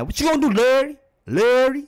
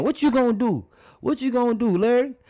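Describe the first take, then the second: First: "Larry" with the L hit hard, high and louder; mad emphasis on Larry. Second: High, challenging taunt, pitched well up; mock taunting Kareem. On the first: Shown as a demonstration. Reactor showing how people say "Larry" when mad, L punched. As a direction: lean on the L of "Larry" like you're mad. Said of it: "put the emphasis on La-, on the L when they saying Larry when they mad". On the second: Kareem daring Larry on court, high mock taunt. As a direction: dare him, high and cocky. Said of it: "he started probably saying".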